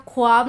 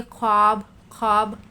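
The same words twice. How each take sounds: First: ख्वाब as 'khu-aab', with an audible w; vav wrongly sounded. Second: ख्वाब as 'khaab', no w sound; silent vav. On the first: (ख्वाब में वाव की आवाज़ निकालकर) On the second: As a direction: go straight from kh to long aa in ख्वाब. (ख्वाब में वाव बिना बोले) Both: Shown as a demonstration. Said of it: "ख्वाब नहीं पढ़ेंगे".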